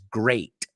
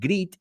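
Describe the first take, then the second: First: The vowel sounds like 'ay', as in 'gate'. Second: The vowel sounds like 'ee', as in 'greet'. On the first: The speaker calls it right. "and it's great" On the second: The speaker calls it wrong. "You said greet"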